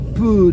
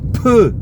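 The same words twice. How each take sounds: First: The p is soft with no burst. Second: The p has a strong explosive burst. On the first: The speaker calls it wrong. "on ne prononcera pas" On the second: The speaker calls it right.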